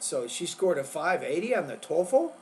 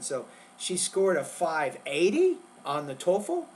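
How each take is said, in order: First: The stress falls on the word TOEFL. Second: The stress falls on the number five eighty. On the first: "not the test in the second one" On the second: "So you'd focus on that word five eighty there"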